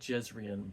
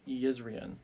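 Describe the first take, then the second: First: The name begins with a J sound. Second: The name begins with a Y sound. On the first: The speaker calls it wrong. "not Jezrien" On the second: The speaker calls it right. "the J's are pronounced like Y's"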